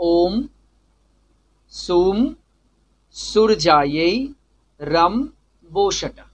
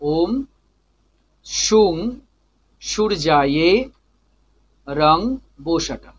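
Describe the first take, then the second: First: The nasal endings are a closed m sound. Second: The nasal endings are a nasal ng sound. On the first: "যেখানে অনুস্বার ছিল সেখানে ম হয়ে গেল" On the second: "একটা নাকে চলে যাচ্ছে"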